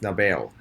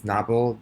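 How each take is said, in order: First: Novel said with stress on the second syllable, no-VEL, like Nobel. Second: Novel said with stress on the first syllable, NOV-el. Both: Shown as a demonstration. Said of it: "the schwa position changes here from novel, novel".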